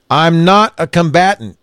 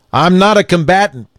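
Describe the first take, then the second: First: Raised and higher, yet steady; man calling to armed police again, loud steady voice; loud but steady. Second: Raised and higher, yet steady; man with hands up calling to the police, loud steady voice; loud but steady. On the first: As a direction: repeat it loudly, keep it even. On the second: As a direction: declare it loudly, keep it steady. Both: A narrator's reading. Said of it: "loudly but in a steady voice".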